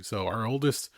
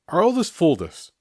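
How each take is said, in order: First: Said in the usual way. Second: "oldest" pushed higher and louder; emphatic restart. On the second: Shown as a demonstration. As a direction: hammer "our oldest" the second time.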